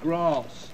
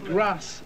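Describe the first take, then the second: First: The word is said in a non-Liverpool accent. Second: The word is said in a Liverpool accent.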